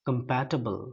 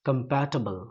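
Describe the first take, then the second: The two takes are said the same way.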